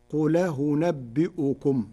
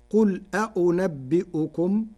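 First: قل أنبئكم with the hamza vowel moved onto ل and the second hamza eased, slow; Warsh hamza transfer. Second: Said in the usual way. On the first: Shown as a demonstration. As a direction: carry the hamza onto the ل and smooth the next one. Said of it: "فتصير". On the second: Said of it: "بنقل حركة الهمزة المفتوحة إلى الساكن".

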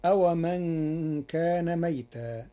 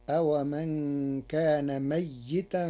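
First: ميتا with silent single ya; ميتا read as maytan; reading of Hafs. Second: ميتا with doubled ya in i; ميتا read as mayyitan; Warsh reading. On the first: (ميتا بسكون الياء) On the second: (ميتا بتشديد الياء مع كسرها) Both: Shown as a demonstration. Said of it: "بتشديد الياء مع كسرها".

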